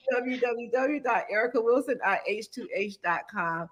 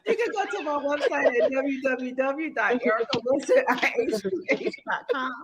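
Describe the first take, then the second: First: Said in the usual way. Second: Website read through laughter; laughing. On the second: Real, not acted. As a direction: giggle through the address.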